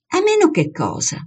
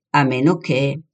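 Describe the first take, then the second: First: High-pitched start, falling sharply; pressing question. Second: Unfinished thought left hanging, slight rise; hesitant. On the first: Girl pressing her hesitant friend to finish, questioning. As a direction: press "cosa" as a demanding question. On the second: Young man holding back his suspicion, hesitant. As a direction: hesitate and leave "A meno che" open. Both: A narrator's reading.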